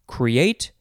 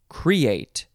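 First: The stress is on the second syllable. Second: The stress is on the first syllable. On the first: The speaker calls it right. "I prefer the first one" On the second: The speaker calls it wrong. "I don't really like that second one"

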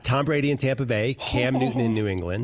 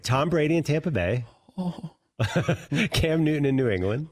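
First: The two phrases run on without a pause. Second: A clear pause separates the two phrases. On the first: The speaker calls it wrong. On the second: The speaker calls it right.

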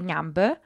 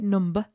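First: It is said in a southeastern English accent. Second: It is said in a northern English accent. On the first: "Down here in Southeast England, where I suddenly find myself living, people say number" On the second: "where I lived for 15 years in north of England, we say number"

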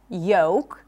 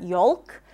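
First: No L sound is heard before the K. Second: An L sound is heard before the K. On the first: The speaker calls it right. "the L is not pronounced in words like yolk" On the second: The speaker calls it wrong. "not yolk"

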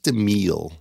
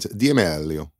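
First: The name is said with an American pronunciation. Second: The name is said with an Italian pronunciation. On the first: The speaker calls it wrong. "it's not D'Amelio" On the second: The speaker calls it right. "With the Italian"

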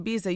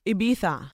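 First: The word is said with an English pronunciation. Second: The word is said with a Spanish lisped pronunciation. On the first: The speaker calls it wrong. "You can't say Ibiza" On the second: The speaker calls it right. "You say Ibiza"

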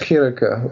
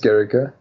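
First: It begins with a throaty ch sound. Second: It begins with a hard g sound.

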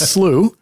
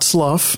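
First: The word does not begin like 'slug'. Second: The word begins with a sound like 'slug'. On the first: The speaker calls it right. "It's not sluggish. It's slough" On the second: The speaker calls it wrong. "It's not slough"

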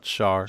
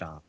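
First: The name ends with an audible R sound. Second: The name ends without any R sound. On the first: The speaker calls it wrong. "not Char" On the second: The speaker calls it right. "I said Shah Aznable"

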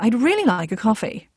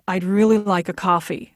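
First: The key syllable is marked by a change in pitch. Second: The key syllable is marked by extra loudness and weight. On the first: This is how an RP accent emphasizes. "as opposed to" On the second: This is how a general American accent emphasizes. "Whereas if you take like a general American accent, it's much more about weight and volume"

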